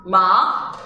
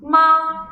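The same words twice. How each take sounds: First: Rising "ma"; questioning upward "ma"; second tone. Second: Long level "ma"; steady "ma" with no glide; first tone. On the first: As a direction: start "ma" low and glide it up. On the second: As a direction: hold "ma" high on one straight pitch. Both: Shown as a demonstration. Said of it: "how these two tones sound together".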